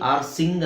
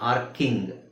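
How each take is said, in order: First: The c is sounded as s. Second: The c is sounded as k. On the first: The speaker calls it wrong. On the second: The speaker calls it right.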